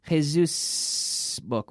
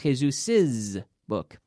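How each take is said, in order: First: The first word has two syllables. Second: The first word has three syllables. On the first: The speaker calls it wrong. "We don't say Jesus book" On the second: The speaker calls it right. "We say Jesus's book. It's like an extra syllable"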